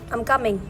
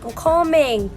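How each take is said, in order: First: It is said in the speaker's plain accent. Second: It is said in an imitated Nigerian accent. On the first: "So basically they're saying I'm coming" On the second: "they would say"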